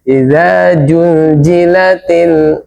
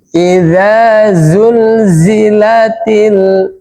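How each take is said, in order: First: The second word is said with 'j' sounds. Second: The second word is said with 'z' sounds. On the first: The speaker calls it wrong. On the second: The speaker calls it right.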